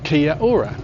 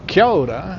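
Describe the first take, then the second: First: The final and initial vowels are said separately. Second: The final and initial vowels merge into one. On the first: The speaker calls it wrong. "and not" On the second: The speaker calls it right. "join together or elide and become ao"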